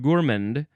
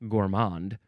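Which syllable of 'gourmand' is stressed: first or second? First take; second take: first; second. First: The stress is on the first syllable. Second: The stress is on the second syllable. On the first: "The emphasis is on the first syllable" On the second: "I would have assumed gourmand for some reason"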